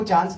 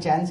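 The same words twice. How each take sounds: First: It is said with a broad, non-American vowel. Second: It is said with an American-sounding vowel.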